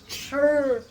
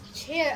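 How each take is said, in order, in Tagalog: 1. Ang patinig ay tunog na 'ur'. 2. Ang patinig ay tunog na 'air'. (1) "she says chair as chur" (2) "she says chair as"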